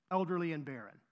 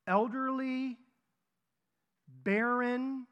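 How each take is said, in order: First: Said in the usual way. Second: Put-on "elderly," and "barren" each stretched high and held; drawn-out hint. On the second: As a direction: dangle "elderly," then "barren" as clues, with long pauses. Drawn-out hint for listeners to guess.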